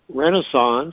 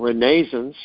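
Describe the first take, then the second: First: It is said with the usual pronunciation. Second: It is said with the alternative English pronunciation.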